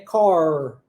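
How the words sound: The final R is clearly pronounced. "No caso do inglês americano, a gente tem esse R fechado"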